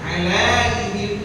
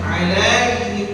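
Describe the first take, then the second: First: The diphthong is stretched with a long vowel. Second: The same.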